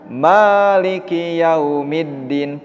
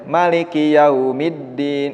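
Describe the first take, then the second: First: The first vowel of Maliki is long. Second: The first vowel of Maliki is short. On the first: It means owner or possessor. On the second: It means king or ruler.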